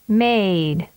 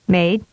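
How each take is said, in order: First: The vowel is prolonged. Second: The vowel is held briefly. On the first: "and then with a longer duration" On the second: "with a short vowel duration first"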